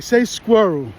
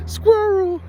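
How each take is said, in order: First: Said in the usual way. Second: "Squirrel" in a thick New York accent, higher and cracking with laughter; New York accent, laughing. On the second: Shown as a demonstration.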